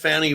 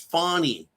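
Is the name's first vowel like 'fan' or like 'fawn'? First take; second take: fan; fawn. First: The first vowel sounds like in 'fan'. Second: The first vowel sounds like in 'fawn'. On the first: The name is deliberately said differently from its owner's version. "I'm going to mispronounce it, whether you like it or not" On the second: This is how the name's owner says it. "Remember how she said, it's Fawny"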